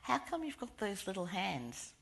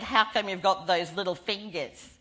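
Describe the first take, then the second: First: The question is asked quietly and politely. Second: The question is asked louder and more insistently.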